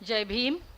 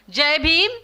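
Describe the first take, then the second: First: It is said at normal, softer volume. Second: It is said louder, with more energy.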